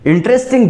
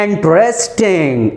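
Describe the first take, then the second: First: Said in the usual way. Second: Slow इंटरेस्टिंग in separate beats, in-tres-ting; broken into syllables. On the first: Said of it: "this is your adjective". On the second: Shown as a demonstration. Teacher showing it takes two or three goes, slow separated syllables in इंटरेस्टिंग. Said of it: "एक बार में तो नहीं निकल रहा ना".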